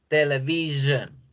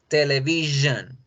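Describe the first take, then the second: The two takes are said the same way.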